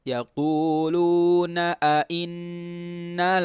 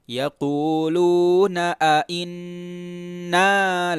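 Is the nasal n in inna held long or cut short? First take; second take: short; long. First: The nasal n is cut short. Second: The nasal n is held for two beats. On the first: The speaker calls it wrong. "Jangan sampai" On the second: The speaker calls it right. "maka dengungnya dua harokat"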